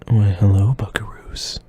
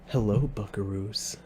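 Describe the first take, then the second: First: It is said in a sultry, sensual tone. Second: It is said in a plain, ordinary tone.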